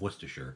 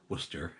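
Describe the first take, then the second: First: Every syllable of the word is pronounced. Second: Whole syllables of the word are dropped.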